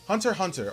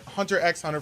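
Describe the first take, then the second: First: The X is silent between the words. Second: The X is spoken between the words. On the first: This is the speaker's own way of saying it. "I personally don't" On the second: Some other people say it this way. "for some of you who pronounce the X"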